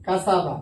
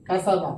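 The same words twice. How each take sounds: The two takes are said the same way.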